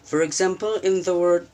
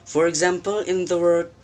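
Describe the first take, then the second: Both takes have the same delivery.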